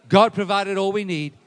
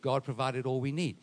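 First: Loud, raised preacher's proclamation; forceful declaration. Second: Said in the usual way. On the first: Shown as a demonstration. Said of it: "say it like this".

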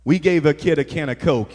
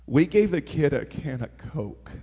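First: Said in the usual way. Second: Hushed emphasis. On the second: Real, not acted. Preacher stressing a small gift to the church, hushed wonder. Repeats it for effect.

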